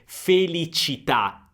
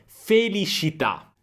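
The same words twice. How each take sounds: First: The middle consonant is a clear 'ch' sound. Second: The middle consonant is a soft 'sh' sound. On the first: "non dice propriamente felicità" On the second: "C diventa un po' una sh"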